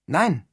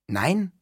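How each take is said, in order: First: Firm, falling, easy refusal; unruffled. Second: Higher, rising, disbelieving question; astonished. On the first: Neil calmly repeats his refusal to Todd, unruffled. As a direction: repeat it calmly with a verbal shrug. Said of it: "gelassen die Achseln und wiederholte". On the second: Todd questions Neil's refusal, astonished. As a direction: echo the word back, lifting it in surprise. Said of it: "Todd machte ein erstauntes Gesicht". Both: A narrator's reading.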